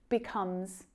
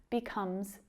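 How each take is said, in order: No difference in how they are said.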